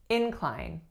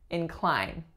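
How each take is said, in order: First: The stress is on the first syllable. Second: The stress is on the second syllable. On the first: It is the noun, a slope. "because I'm stressing the first syllable, you know this is the noun form" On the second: It is the verb, to make disposed. "we are going to flip our stress pattern"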